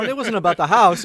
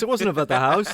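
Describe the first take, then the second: First: House lands high with a falling end; "house" hit hardest and falling; stress on house. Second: "wasn't" pushed up with a rise; "wasn't" punched, the rest lighter; stress on wasn't. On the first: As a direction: land on "house", laughing and emphatic. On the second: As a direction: lean on "wasn't" to insist. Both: Real, not acted.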